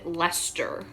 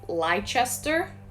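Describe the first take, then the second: First: The word is shortened to two syllables. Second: Every written syllable of the word is sounded. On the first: "how um, British people pronounce it" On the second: "looks like"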